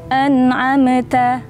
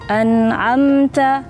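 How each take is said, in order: First: The m bounces with an echoing release. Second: The m is held smoothly without bouncing. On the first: The speaker calls it wrong. "itu bacaan yang salah" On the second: The speaker calls it right. "nggak perlu dipantul, cukup"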